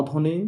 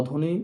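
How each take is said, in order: Both takes have the same delivery.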